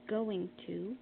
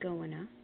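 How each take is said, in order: First: The two words are said separately. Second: The two words run together into one.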